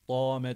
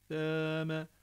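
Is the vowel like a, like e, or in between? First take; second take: like a; in between. First: The vowel sounds like a clear a. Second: The vowel sits between a and e. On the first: The speaker calls it wrong. "dame de değil" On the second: The speaker calls it right. "A E arası"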